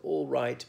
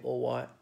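First: The R and double L are pronounced normally. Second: The R sounds like W and the L drops.

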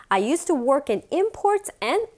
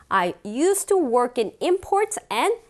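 Both takes have the same delivery.

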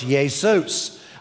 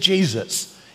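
First: The name begins without a J sound. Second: The name begins with a J sound. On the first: This is the Greek form of the name. "In the Greek language, there's also no J, so it's Jesus" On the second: This is the English form of the name. "the name of the Savior in English is Jesus"

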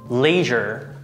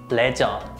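First: It is said with American pronunciation. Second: It is said with Korean pronunciation. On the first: "American pronunciation" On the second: "Korean pronunciation"

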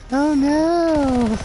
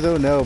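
First: It imitates the guy from Family Guy. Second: It is said in a plain, normal voice.

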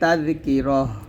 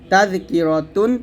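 First: The word ends with a soft 'h' sound. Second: The word ends with a 't' and nasal ending. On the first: The reader pauses at this word. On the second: The reading continues without a stop.

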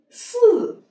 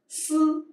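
First: The syllable is said with a falling pitch. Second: The syllable is said with a level pitch.

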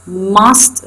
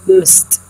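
First: The vowel is full and clear. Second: The vowel is reduced and weak.

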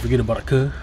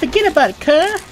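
First: It is said plainly, with little attitude. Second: It is said with more attitude.

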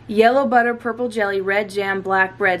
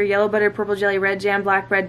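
First: It is said at a slow pace. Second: It is said at a very quick pace.

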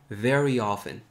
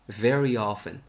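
Both takes have the same delivery.

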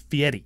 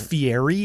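First: The R is a single quick flip. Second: The R is a long, smooth R. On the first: "in Italian, it's a flipped R" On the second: "is how it's spelt"

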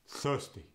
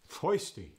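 First: The first vowel sounds like 'uh', without r. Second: The first vowel sounds like 'oi', without r. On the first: "the uh" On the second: "The oi"

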